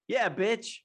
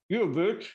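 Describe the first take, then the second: First: The voice sounds clear and unobstructed. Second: The voice sounds muffled, as if pressed.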